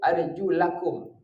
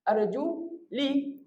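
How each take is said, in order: First: The vowel after 'arjul' is an 'a'. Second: The vowel after 'arjul' is an 'i'. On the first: The feet must be washed. "Tengok baris atas ni" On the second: The feet only need to be wiped. "Sebab kiraat lain dibaca baris bawah"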